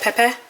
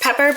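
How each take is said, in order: First: The word ends with an 'ah' sound. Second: The word ends with an 'er' sound.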